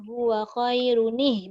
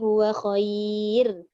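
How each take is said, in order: First: The ending is voiced and linked onward. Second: The phrase stops on a bare final consonant. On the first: "Jadi kalau nak sambung niatnya" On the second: "Kalau berhenti tak ada jadi apalah"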